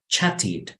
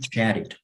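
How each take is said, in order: First: The middle t is a crisp t sound. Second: The middle t sounds like a quick r. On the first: "En británico es" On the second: "American / you read like R in American English"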